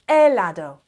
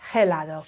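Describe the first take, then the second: First: The initial H is silent. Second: The initial H is pronounced aloud. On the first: The speaker calls it right. "The H is silent" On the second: The speaker calls it wrong. "It's never helado"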